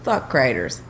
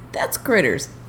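First: The first vowel is long, as in 'cry'. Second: The first vowel is short, as in 'crit'. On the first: The speaker calls it wrong. "That ain't Critters" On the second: The speaker calls it right. "two T's, that's Critters"

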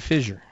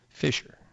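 First: The middle consonant is a voiced zh sound. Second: The middle consonant is a voiceless sh sound. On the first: "I say it with a Z kind of accent" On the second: "Like you're fishing"

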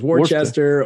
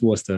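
First: The name is said in a neutral accent. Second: The name is said in a Boston accent. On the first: "It's Worcester" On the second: "or as they'll call it in Boston"

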